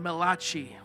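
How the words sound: It is said in an Italian accent.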